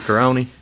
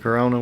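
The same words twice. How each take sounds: First: The final vowel is an 'ee' sound. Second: The final vowel is an 'ah' sound.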